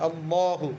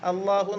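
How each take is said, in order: First: The L sound is heavy and full. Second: The L sound is light and thin. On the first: The speaker calls it right. "അല്ലാഹു എന്നാ വരുന്നത്" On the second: The speaker calls it wrong. "കനം വരുമ്പോൾ അല്ലാഹു എന്നാവൂല"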